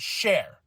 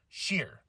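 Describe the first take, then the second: First: The vowel sounds like 'air'. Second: The vowel sounds like 'ee'. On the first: The speaker calls it wrong. "not Share" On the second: The speaker calls it right. "Sheer, not Share"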